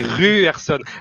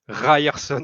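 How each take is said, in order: First: The y sounds like the French 'u'. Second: The y sounds like the English 'eye'. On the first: The speaker calls it right. "Le Y en norvégien, il se prononce U" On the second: The speaker calls it wrong. "je boue intérieurement à chaque fois que vous dites Ryerson"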